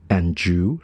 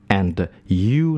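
First: "and you" run together as "an-joo"; smooth, linked "and you"; linked pronunciation. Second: "and you" as separate words, clear D then "you"; unlinked pronunciation. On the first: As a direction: blend D and Y of "and you" into a J. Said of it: "那我们会说and you连音". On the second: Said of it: "那为什么不发成and you呢". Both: Shown as a demonstration.

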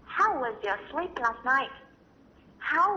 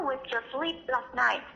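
First: Each word drawn out slowly for learners; slow demo. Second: Said in the usual way. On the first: Shown as a demonstration. Teacher modelling the phrase for parents, slow and careful. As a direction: spell it out slowly so they can follow. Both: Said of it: "美国人常用的说法".

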